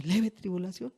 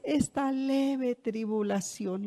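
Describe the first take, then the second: First: Questioning echo. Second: Slow, drawn-out scripture quote; quoting the apostle. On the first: Anyone reacting to the apostle's words, soft doubtful question. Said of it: "Y uno dice". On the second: Preacher quoting the apostle to the church, slow and drawn-out. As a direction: stretch each word out slowly. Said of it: "al final dice". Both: Retold or imitated.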